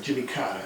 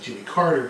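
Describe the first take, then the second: First: Jimmy Carter in a light Southern US accent, r dropped: Cahtuh. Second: Said in the usual way. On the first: Shown as a demonstration. Teacher replaying his slip, light Southern accent on Jimmy Carter. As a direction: repeat the name with a soft Southern accent, no r at the end. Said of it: "I said that with a southern accent". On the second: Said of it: "It's actually Jimmy Carter".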